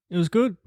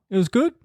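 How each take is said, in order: Both takes have the same delivery.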